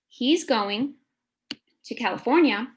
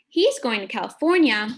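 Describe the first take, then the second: First: It is read slowly in separate phrase chunks. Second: It is read smoothly at a natural pace. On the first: "let's scoop" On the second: "let's read that sentence fluently now"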